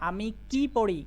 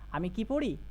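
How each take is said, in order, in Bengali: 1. কি শব্দটি জোর দিয়ে বলা হয়। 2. কি শব্দটি জোর ছাড়া বলা হয়। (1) "এখানে কি এর ওপরে জোর দিতে হবে" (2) "এখানে যে কি শব্দ আছে সেটা অতটা জোর দেওয়া হয় না"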